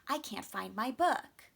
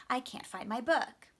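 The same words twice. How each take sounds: No difference in how they are said.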